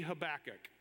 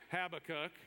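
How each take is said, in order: First: "Habakkuk" stressed on the second syllable, huh-BACK-uk; option B pronunciation. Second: "Habakkuk" stressed on the first syllable, HAB-uh-kuk; option A pronunciation. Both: Shown as a demonstration.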